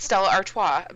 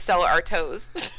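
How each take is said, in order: First: The name is pronounced in its usual way. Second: The name is pronounced in an altered way. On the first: The speaker calls it right. "And it's Stella Artois" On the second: The speaker calls it wrong. "He says Stella Artois"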